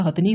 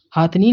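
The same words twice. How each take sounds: First: हथनी with a short अ, hath-ni; हथनी said correctly; correct pronunciation. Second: हाथनी with a long आ, haath-ni; हाथनी the common mistake; wrong pronunciation. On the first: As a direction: say हथनी with a short first vowel. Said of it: "हथनी होता है". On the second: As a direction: say हाथनी stretching the first syllable. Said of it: "हाथनी नहीं होता". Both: Shown as a demonstration.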